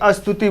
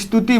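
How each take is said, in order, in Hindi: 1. संयुक्त व्यंजन से पहले एक छोटा स्वर आता है। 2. यह सीधे संयुक्त व्यंजन से शुरू होता है। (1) "ना कि अस्तुति बोला जाता है" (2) "स्तुति बोला जाता है"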